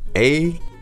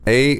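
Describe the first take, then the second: First: The two sounds are said with a pause between. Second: The two sounds are said quickly without a pause. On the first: "practice them separately" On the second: "say them quickly together"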